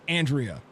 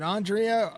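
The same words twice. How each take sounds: First: The first syllable sounds like 'an'. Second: The first syllable sounds like 'on'.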